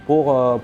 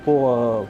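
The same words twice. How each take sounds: The two takes are said the same way.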